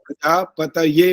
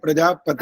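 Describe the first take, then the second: First: The word ends with an added separate 'ye' syllable. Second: The word ends with a single short final syllable. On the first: The speaker calls it right. "होता है" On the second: The speaker calls it wrong. "नहीं"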